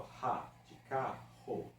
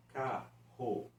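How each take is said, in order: First: "Ra, de carro" devagar, com o rr arrastado; sounding out rr. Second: Said in the usual way. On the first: Shown as a demonstration. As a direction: estica o "carro". ("carro" lento com rr gutural marcado) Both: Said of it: "pronunciados por um som apenas".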